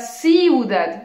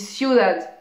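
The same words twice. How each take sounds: First: The first two vowels are split into separate syllables. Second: The first two vowels glide together in one syllable. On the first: The speaker calls it wrong. "je dis pas ciudad" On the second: The speaker calls it right. "je dis ciudad"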